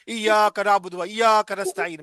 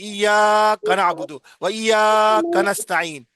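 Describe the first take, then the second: First: The phrase is said at plain length. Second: The sounds are stretched out long. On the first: "हर आदमी यही पढ़ रहा है" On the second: "जो बल्कि लंबा कहते हैं"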